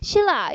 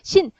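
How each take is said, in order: First: The first syllable ends in l, linked smoothly. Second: The first syllable ends in n, then a break. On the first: The speaker calls it right. "밑에 리을. 위에 리을 이렇게 이어서 발음하면 훨씬 더 편하죠" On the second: The speaker calls it wrong. "니은하고 리을로 딱 발음하는 것보다"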